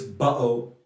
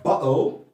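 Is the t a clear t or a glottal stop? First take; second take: glottal stop; clear t. First: The t is replaced by a glottal stop. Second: The t is pronounced as a clear t. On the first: "is bottle in the Cockney accent" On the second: "not bottle in the R P pronunciation"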